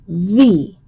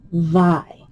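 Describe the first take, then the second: First: The syllable ends in a long 'ee' vowel. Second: The syllable ends in a long 'eye' vowel. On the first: The speaker calls it right. "this syllable could be V" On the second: The speaker calls it wrong. "make sure it's not V, I, Vi"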